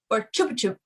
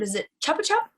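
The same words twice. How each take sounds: First: Chupa Chup with the U said as "oo", like "choo-pa choop"; "oo" vowel. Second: Chupa Chup with the U said as "uh", like "chuh-pa chup"; "uh" vowel. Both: Shown as a demonstration. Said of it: "is the U an uh or an oo sound".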